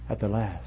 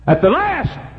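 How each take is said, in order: First: Soft, solemn preacher's refrain; hushed refrain. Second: High, loud preacher's cry; shouted refrain. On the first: Preacher on the pillar of salt, hushed warning. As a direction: let it fall softly. Quiet take of repeated refrain. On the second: Preacher warning sinners of the end, sudden shout. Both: Real, not acted.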